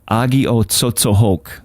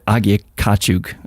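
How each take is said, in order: First: The word ends with a 'tsotsohok' sound. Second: The word ends with a 'kachuk' sound. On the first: This is the original Abenaki pronunciation. The speaker calls it right. "but it's it's" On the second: This is the common local pronunciation. The speaker calls it wrong. "a lot of people call it"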